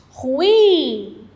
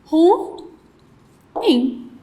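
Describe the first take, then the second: First: "Ruim" with a long drawn-out -im; stress on last syllable. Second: "Ruim" broken in two, ru, long pause, im; split into syllables. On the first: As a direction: stretch the final syllable of "Ruim". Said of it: "qual é a sílaba mais forte?". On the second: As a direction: divide "Ruim" with a clear gap between ru and im. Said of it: "Como que eu faço a divisão". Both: Shown as a demonstration.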